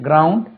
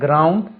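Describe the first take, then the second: No difference in how they are said.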